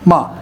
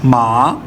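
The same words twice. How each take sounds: First: The pitch drops sharply from high to low. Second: The pitch dips low and then rises. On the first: "तलवार की तरह ऐसे यकदम ... फाइव से आ जाती है सीधा टू की तरफ या वन की तरफ" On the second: "टू से इसको नीचे लेके आता हूँ फर्स्ट पे ... फिर यहाँ से ऊपर चली गई"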